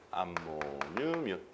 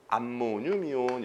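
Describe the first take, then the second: First: "암모늄 이온" drawn out slowly, low and very soft; slow repeat. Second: Said in the usual way. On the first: Shown as a demonstration. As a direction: repeat "암모늄 이온" quietly, syllable by syllable. Teacher repeats the name for learners.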